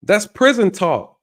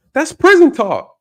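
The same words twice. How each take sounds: First: Slower repeat. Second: Emphatic shout. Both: Real, not acted.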